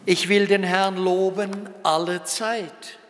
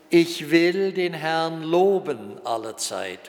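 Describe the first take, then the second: First: The stress is on the words alle Zeit. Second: The stress is on the word will. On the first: Praise is due at all times, not only good ones. "Andererseits können wir auch sagen ... Nicht nur dann, wenn es uns gut geht" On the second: Praising takes a deliberate decision of the will. "Einerseits können wir diesen Appell so betonen: ... Ich will"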